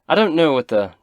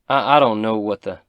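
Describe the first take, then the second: First: It is said in Toblin's character voice. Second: It is said in a voice unlike Toblin's.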